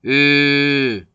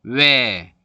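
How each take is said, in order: First: 으 as a long rounded "ö", no glide; steady, sustained front rounded vowel on 으; pure monophthong. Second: 외 as a gliding "we"; drawn-out 외 changing from w to e; diphthong pronunciation. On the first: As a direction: hold 으 with fixed rounded lips. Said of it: "이렇게 발음을 해야 이게 정확한 단모음". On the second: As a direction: let the lips move through 외. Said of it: "변하고 있죠". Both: Shown as a demonstration.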